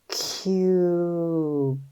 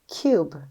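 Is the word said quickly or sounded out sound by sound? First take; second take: sounded out; quickly. First: It is sounded out slowly, sound by sound. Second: It is blended and said quickly as one word. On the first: "Let's sound it out" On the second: "Say it fast"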